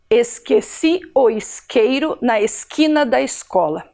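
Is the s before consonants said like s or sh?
s. The s before consonants sounds like s.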